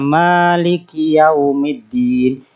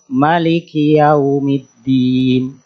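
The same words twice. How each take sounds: First: The vowel after the first m is long. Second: The vowel after the first m is short. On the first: "membaca panjang lafadz ma pada kata maliki" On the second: "Mimnya dibaca pendek"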